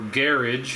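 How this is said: It is said in a European-style accent.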